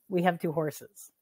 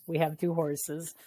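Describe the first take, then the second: First: Said in the usual way. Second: Slow, with the word "two" leaned on and rising; stress on two. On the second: Shown as a demonstration. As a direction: linger on "two" to show the jump from zero. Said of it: "We started out with zero horses".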